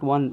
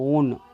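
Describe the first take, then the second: First: It is pronounced like the number 'wun'. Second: It is pronounced with a long 'oh' sound. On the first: The speaker calls it wrong. "Not వన్" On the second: The speaker calls it right. "Pronunciation ఏంటి అంటే ఓన్"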